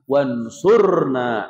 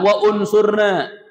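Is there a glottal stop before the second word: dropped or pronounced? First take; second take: dropped; pronounced. First: The glottal stop is dropped, blending the words. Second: A glottal stop separates wa from the verb. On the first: The speaker calls it right. "Tapi apa? Wansurna" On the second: The speaker calls it wrong. "ada nggak wa unsurna? Nggak ada"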